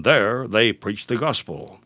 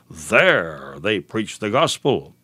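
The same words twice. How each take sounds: First: Said in the usual way. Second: "There" stretched long and low, heavily weighted; stress on THERE. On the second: Shown as a demonstration. Preacher showing listeners what scripture emphasizes, stress on "There". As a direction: lean slowly on "There" to emphasize it. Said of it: "It is emphasized".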